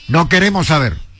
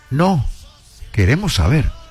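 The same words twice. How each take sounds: First: It runs on without a pause after 'no'. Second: There is a pause after 'no'.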